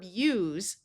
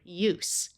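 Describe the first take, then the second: First: The word ends with a Z sound. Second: The word ends with an S sound. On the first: It is the verb. "the verb use, where S has the Z sound" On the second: It is the noun. "the noun form of the word use"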